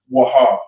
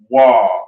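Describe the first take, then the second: First: It is said as two separate syllables. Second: It is said as one drawn-out syllable. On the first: The speaker calls it wrong. "Most people will say Waha, but it's not that" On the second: The speaker calls it right. "it's just simply Wa, but it's just dragged out"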